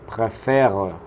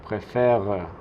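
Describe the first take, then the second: No difference in how they are said.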